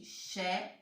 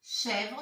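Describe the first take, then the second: First: "Chèvre" split into "chè", a long pause, then "vre"; two-syllable reading. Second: Said in the usual way. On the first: Shown as a demonstration. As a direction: sound out "Chèvre" slowly, syllable by syllable. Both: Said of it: "Deux syllabes aussi".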